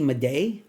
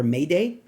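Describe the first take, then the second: First: "Maday" as "muh-DAY"; unsure name pronunciation. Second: "Mayday" as "MAY-day"; alternative name pronunciation. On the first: Reviewer trying the actor's surname, "Maday" as "muh-DAY". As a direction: say "Maday" with a short first syllable. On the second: Reviewer offering another reading of the surname, "Mayday" as "MAY-day". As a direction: say "Mayday" with a full "may" first. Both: Shown as a demonstration. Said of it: "or Mayday".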